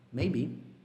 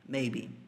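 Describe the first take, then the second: First: The stress is on the second syllable. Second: The stress is on the first syllable. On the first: This form is sometimes used when the word is said alone. "Às vezes o maybe vem com be forte" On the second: This is the usual form inside sentences. "dá um pouquinho mais de força no may"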